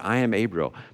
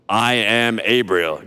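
First: It is said in a plain, normal voice. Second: It is said in a put-on, imposing voice.

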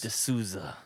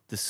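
First: The name is said firmly, with confidence. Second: The name is said tentatively, without confidence.

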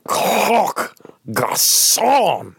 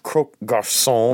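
First: It is said with an exaggerated French accent. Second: It is said with a mild, plain accent.

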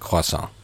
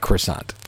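First: The word is pronounced with a French-style sound. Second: The word is pronounced with an English-style sound. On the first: The speaker calls it right. "everyone in our family calls it a croissant" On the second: The speaker calls it wrong. "Not a croissant"

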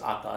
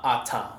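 First: The T is said very softly. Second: The T is said harder and crisper. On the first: This is the Tongan way of saying the name. The speaker calls it right. "we have the softest T's in Tongan" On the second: This is how a Samoan would say the name. The speaker calls it wrong. "not Ata, like if for Samoan"

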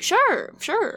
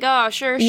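First: It sounds sincere, not dismissive. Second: It sounds dismissive and offhand.

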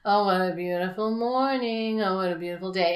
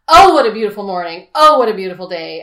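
First: The words are said flatly, with little energy. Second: The words are said loudly, with lots of energy. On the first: The speaker calls it wrong. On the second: The speaker calls it right.

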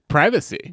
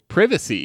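First: The first syllable rhymes with 'eye'. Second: The first syllable rhymes with 'give'.

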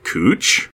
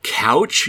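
First: The vowel sounds like 'oo' in moon. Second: The vowel sounds like 'ow' in cow. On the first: This is how the street name is actually said. "yet is pronounced like cooch" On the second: This is how the spelling suggests it is said. "the word that spells like couch"

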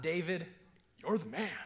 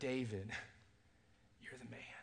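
First: It sounds like admiring praise. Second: It sounds like a grave accusation.

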